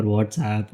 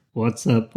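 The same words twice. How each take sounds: First: "WhatsApp" ending in APP, low and soft; WHATSAPP pronunciation. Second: "What's up" said as two words, low; WHAT'S UP pronunciation. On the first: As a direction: say "WhatsApp" like the app's name. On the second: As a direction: say "What's up" with a short UP, lower. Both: Shown as a demonstration. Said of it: "I don't know how they pronounce it".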